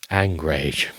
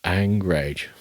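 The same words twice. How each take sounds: First: Low flat coinage. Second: Low flat repeat. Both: Shown as a demonstration. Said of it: "I've not thought of angrage before".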